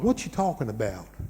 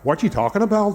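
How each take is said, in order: First: It has long, stretched vowels in a Southern US accent. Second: It is spoken in a rounded Northern Irish accent. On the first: "southern is like" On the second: "a Northern Irish accent over there as well"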